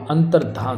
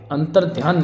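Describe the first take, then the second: First: Said in the usual way. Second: अंतर ध्यान split, with "dhiyan"; mispronounced अंतर ध्यान. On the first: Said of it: "अंतर्धान होगा". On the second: Shown as a demonstration. Teacher showing the wrong form, अंतर ध्यान as two words. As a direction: put a y sound into ध्यान. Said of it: "अंतर ध्यान नहीं होगा".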